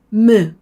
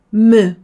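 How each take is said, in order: No difference in how they are said.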